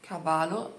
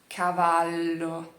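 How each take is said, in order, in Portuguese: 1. O L é curto e rápido. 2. O L é longo e sustentado. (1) "não é cavalo, cavalo parece espanhol" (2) "Tem essa pausa e esse L que segura"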